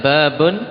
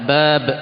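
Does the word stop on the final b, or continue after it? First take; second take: continues; stops. First: A vowel sound follows the final b. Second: The word stops dead on the final b.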